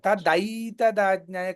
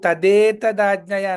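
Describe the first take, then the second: First: The second syllable has an 'ai' glide vowel. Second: The second syllable has a plain 'e' vowel. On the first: The speaker calls it right. "తదైతదాజ్ఞాయ కావాలి" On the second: The speaker calls it wrong. "ఇప్పుడు మీరు తదేతదాజ్ఞాయ అన్న"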